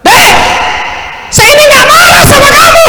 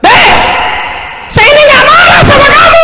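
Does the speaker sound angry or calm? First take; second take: angry; angry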